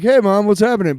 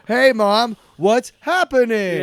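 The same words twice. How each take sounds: First: It sounds casual and natural. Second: It sounds strained and unnatural.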